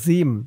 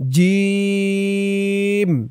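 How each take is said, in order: First: The vowel is short, without a drawn-out stretch. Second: The vowel is firmly drawn out and held long. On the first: The speaker calls it wrong. "জিম বললে কিন্তু জিমের উচ্চারণটা শুদ্ধ হয় না" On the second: The speaker calls it right. "শক্ত করে তিন আলিফ টান দিয়ে বলতে হবে জিম"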